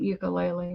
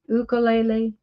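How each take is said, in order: First: It is said with the American pronunciation. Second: It is said with the non-American pronunciation. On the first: The speaker calls it wrong. "not ukulele" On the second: The speaker calls it right. "It's really ukulele"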